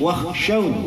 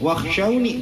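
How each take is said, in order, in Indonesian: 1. Kata ini berakhir pada bunyi aw. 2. Kata ini berakhir dengan bunyi ni. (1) "ada waqaf qala jadi wakhshaw"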